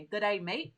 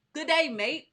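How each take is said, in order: First: Said in the usual way. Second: "Good day, mate" tossed out higher and louder in a playful Australian twang; mock Aussie greeting. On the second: Host on a livestream greeting Australian viewers with a playful mock Aussie accent. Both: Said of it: "so I could say, "Good day, mate".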